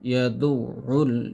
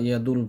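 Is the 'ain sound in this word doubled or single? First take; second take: doubled; single. First: The 'ain sound is held, pronounced doubled. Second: The 'ain sound is pronounced once, short. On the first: The speaker calls it right. "আইনের উচ্চারণটা দুইবার হবে।" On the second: The speaker calls it wrong. "অর্থাৎ আইনের উচ্চারণ একবার করি।"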